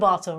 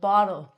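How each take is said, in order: First: The middle consonant is a clear, hard t. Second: The middle consonant sounds like a soft d. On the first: The speaker calls it wrong. "It's not a bottle" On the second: The speaker calls it right. "it's going to be said like a D"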